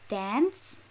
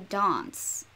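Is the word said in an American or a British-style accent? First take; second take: American; British. First: It is said in an American accent. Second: It is said in a British-style accent. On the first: "the Americans will say dance" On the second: "and I would say dance"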